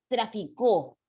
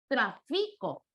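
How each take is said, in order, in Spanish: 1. El acento está en la tercera sílaba. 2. El acento está en la segunda sílaba. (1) "Si yo coloco un acento agudo" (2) "Si le diera acento grave"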